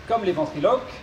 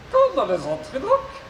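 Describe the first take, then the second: First: Said in the usual way. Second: High robot voice with garbled consonants. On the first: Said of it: "je serai son interprète". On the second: Acted. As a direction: mangle the consonants like a glitchy robot. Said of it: "souffre d'une pathologie vocale".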